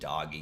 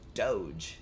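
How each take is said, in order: First: It has a hard g and ends in ee. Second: It has a soft j sound at the end. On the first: The speaker calls it wrong. "I could see how they would say this doggy gamer" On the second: The speaker calls it right. "But no, it's Doge"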